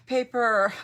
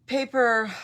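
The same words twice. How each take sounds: The two takes are said the same way.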